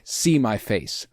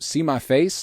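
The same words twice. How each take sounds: First: The voice falls at the end like a demand. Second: The voice rises at the end like a question.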